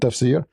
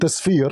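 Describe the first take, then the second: First: The f sound comes before the s sound. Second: The s sound comes before the f sound. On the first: The speaker calls it right. "not Tafsir" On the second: The speaker calls it wrong. "You mentioned Tasfir"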